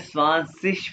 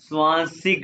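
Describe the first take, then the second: First: The word ends in a sh sound. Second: The word ends in a k sound. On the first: "इसको जर्मन में स्वानसिश भी कहते हैं" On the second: "स्वानसिक भी कहते हैं"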